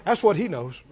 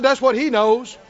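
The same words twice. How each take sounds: First: Said in the usual way. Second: "That's" stressed, the line ending on a rise; emphatic repeat, rising on "That's". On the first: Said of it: "I said, "That's what he knows". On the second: Shown as a demonstration. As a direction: repeat it with emphasis, lifting at the end. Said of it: "I said".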